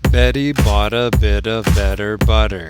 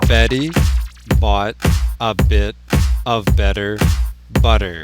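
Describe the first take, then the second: First: The sentence is said at a faster speed. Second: The sentence is said at a normal speed. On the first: "Now faster" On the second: "Now relax your T's"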